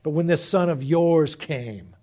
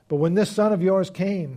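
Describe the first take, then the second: First: It is read in a bitter, resentful tone. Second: It is read in a plain, neutral tone. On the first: The speaker calls it right. "that's better" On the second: The speaker calls it wrong. "I probably should have read it differently"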